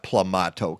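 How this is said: The word is said with a British vowel. The speaker calls it wrong. "not plumato. Come on, Peggy. Are you British?"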